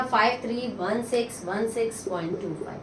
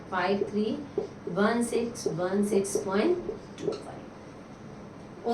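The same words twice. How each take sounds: First: Said in the usual way. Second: Slow it down so the class can write each digit; slow dictation. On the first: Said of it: "teacher reads the result, then repeats it". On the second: Shown as a demonstration. Teacher repeats the answer slowly for students to copy. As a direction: spell out the digits slowly, one by one. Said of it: "teacher repeats the number slowly".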